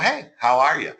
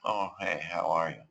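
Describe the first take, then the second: First: The greeting sounds lively with a bit more energy. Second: The greeting sounds flat and low in energy.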